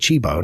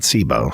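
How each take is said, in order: First: The name begins with a ch sound. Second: The name begins with an s sound. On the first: The speaker calls it right. "learned to say Chibo" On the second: The speaker calls it wrong. "not Sibo"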